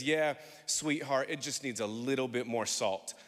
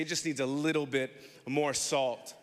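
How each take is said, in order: First: Gentle grandmother. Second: Said in the usual way. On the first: Retold or imitated. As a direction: comfort him while delivering the verdict. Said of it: "puts her hand on this world-renowned chef's shoulder and says". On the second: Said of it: "turn to your neighbor and say".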